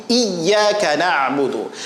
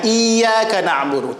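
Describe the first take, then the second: First: Iyyaka with a firmly held double y; pressed ya tasydid. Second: Iyyaka with a light, unpressed ya; ya without tasydid. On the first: Teacher shows students the correct reading, ya pressed and doubled. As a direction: lean hard on the "yy" of "iyyaka". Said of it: "Ya tasdid, nabrohkan, tekan". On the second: Teacher shows students the mistake to avoid, ya left unstressed. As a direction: say "iyyaka" without leaning on the doubled y. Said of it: "Jangan iyyaka na'budu". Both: Shown as a demonstration.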